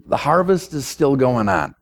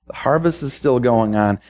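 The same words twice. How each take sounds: The two takes are said the same way.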